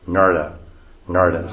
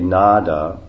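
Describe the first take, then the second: First: The middle consonant is a rolled r-like sound. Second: The middle consonant is a plain d sound. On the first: "which means rolled R. Narda, something like this" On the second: "we say Nada"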